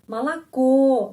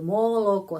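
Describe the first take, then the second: First: The first two vowels sound like a. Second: The first two vowels sound like o. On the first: The speaker calls it right. "tapi dua huruf ini pengucapannya A" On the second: The speaker calls it wrong. "kalau kita membaca seperti itu, moloko, seperti di kelas satu S D"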